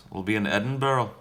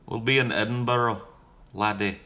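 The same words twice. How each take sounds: First: Said in the usual way. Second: A light, hammed-up Scottish accent, higher; mock Scottish accent. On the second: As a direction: put on a jokey Scottish brogue for Edinburgh, laddie. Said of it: "No, that was Scottish".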